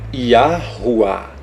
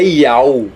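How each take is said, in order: First: It has four syllables ending in 'wah'. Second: It is one short syllable ending in 'ow'. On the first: The speaker calls it right. "outro rei mais um A H" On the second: The speaker calls it wrong. "Não é Yau"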